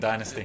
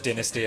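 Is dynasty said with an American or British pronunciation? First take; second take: American; British. First: It is said with an American pronunciation. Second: It is said with a British pronunciation. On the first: "American dynasty" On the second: "British dynasty"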